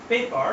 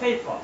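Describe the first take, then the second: First: The p sounds have no puff of air. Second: The p sounds have a puff of air. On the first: The speaker calls it wrong. "পেপার আমরা না বলে" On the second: The speaker calls it right. "কি বলবো ফেফা"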